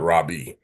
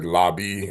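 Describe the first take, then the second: First: It begins with an R sound. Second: It begins with an L sound. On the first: The speaker calls it wrong. "and not Rabbi" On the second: The speaker calls it right. "we said Labi"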